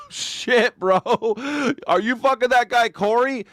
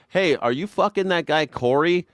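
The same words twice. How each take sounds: First: Much higher, bro-ish mock question; a dude-bro blurting it out. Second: Said in the usual way. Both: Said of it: "mocking congress question".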